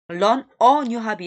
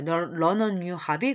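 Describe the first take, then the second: First: Each word is said separately, without linking. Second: The n links into 'a', sounding like learner. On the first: The speaker calls it wrong. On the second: The speaker calls it right.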